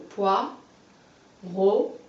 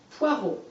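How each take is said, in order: First: Poireau very slowly, poi, long pause, reau; split into syllables. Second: Said in the usual way. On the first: Shown as a demonstration. Teacher showing a pupil the syllables, poireau split by a long pause. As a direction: break poireau in two, each syllable on its own. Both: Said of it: "On recolle".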